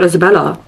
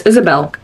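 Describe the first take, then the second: First: Isabella said with four syllables and a final a; dismissive Isabella, the version to reject; wrong name. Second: Isabel said with three syllables, ending on a clear bel; firm, clear Isabel as the only right name; correct name. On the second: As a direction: stress that Isabel ends on bel with no extra a. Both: Shown as a demonstration. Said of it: "my name is not Isabella".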